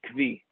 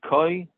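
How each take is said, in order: First: The word is pronounced as kvi. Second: The word is pronounced as koi. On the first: "some say kvi" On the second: "Some say koi"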